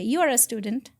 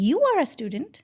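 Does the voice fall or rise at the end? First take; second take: falls; rises. First: The voice falls at the end, like a statement. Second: The voice rises at the end, like a question. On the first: The speaker is telling a fact. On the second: The speaker is asking a question.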